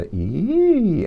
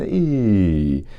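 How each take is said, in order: First: The pitch glides upward like a siren. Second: The pitch glides downward like a siren. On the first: "siren up"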